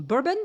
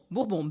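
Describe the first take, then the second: First: "Bourbon" the English way, as a question; tentative English "Bourbon", higher, ending in an unstressed "bun"; English pronunciation. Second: French "Bourbon" with a nasal final "on"; French pronunciation. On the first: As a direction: say "Bourbon" like BUR-bun, rising. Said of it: "how to say this in English". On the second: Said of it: "say it the French way". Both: Shown as a demonstration.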